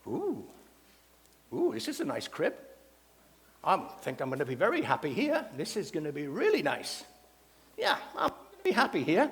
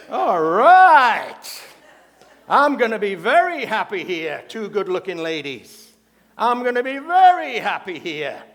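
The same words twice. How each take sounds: First: Contented parrot character, swooping pitch at modest volume; talking parrot. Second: Loud, drawn-out lustful parrot glee; hammed-up parrot thrilled by the company, swelling loudly; delighted parrot. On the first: Acted. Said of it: "and the parrot goes". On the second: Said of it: "The parrot turns and he goes".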